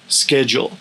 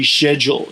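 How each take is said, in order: First: It is said with the American pronunciation. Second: It is said with the British pronunciation. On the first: "instead of schedule" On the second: "around sixty percent of Brits say schedule"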